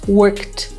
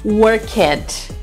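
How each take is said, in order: First: The ending adds no extra syllable. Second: The ending is said as an extra syllable. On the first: The speaker calls it right. "prestar bem atenção nos sons do final" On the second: The speaker calls it wrong. "a gente tem mania de dizer ... E não é assim"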